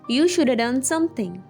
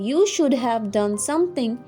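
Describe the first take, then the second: First: The word 'have' is reduced to a weak 'a'. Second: The word 'have' is pronounced in full. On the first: "you can say" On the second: "Instead of saying"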